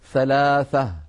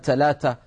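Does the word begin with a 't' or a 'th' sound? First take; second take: th; t. First: The first sound is a 'th' sound. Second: The first sound is a plain 't'. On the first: The speaker calls it right. "لابد أن نقول ثلاثة، ثلاثة بالثاء" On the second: The speaker calls it wrong. "ما نقول مثلا ثلاثة، ثلاثة ما بيصح"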